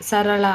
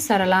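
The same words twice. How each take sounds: First: సరళ with curled-tongue ళ; retroflex L. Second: సరళ as "sarala", tongue at the teeth; plain l for ళ. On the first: Teacher showing the correct form, సరళ with retroflex L. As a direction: curl the tongue back for the end of సరళ. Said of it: "అలా వాడాలి". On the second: Teacher showing an error, సరళ with dental l. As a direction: flatten the last sound of సరళ to ల. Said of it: "అలాను సరిగా ఉచ్చరించలేకపోవటం". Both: Shown as a demonstration.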